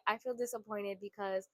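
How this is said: The tone is soft and gentle. It shares feelings to build closeness. The speaker calls it right. "if you change your tone"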